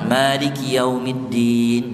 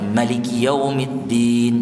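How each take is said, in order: First: The first vowel of Maliki is held long. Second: The first vowel of Maliki is kept short. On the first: "riwayat yang dibaca panjang" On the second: "Bisa dibaca pendek"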